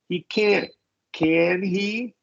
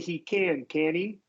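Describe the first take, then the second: First: The T in can't is fully stopped. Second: The T in can't is a quick flap. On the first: "stop on the T" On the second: "they'll flap the T"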